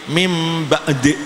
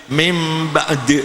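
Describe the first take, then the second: No difference in how they are said.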